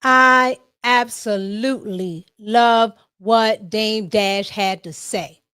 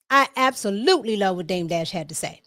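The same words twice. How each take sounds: First: Slow, weighty opening, leaning on "I"; slow emphatic. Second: Said in the usual way. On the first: Shown as a demonstration. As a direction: draw out "I absolutely love" and savor each word.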